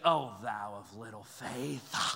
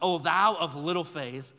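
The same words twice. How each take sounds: First: It is said with an exasperated, condemning tone. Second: It is read in a plain, neutral tone.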